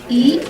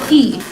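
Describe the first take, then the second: First: The syllable is said with the second tone. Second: The syllable is said with the fourth tone.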